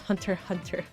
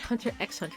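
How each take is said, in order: First: The letter X is left silent between the words. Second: The letter X is spoken between the words. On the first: The speaker calls it right. "You don't pronounce the X" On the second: The speaker calls it wrong. "not Hunter x Hunter"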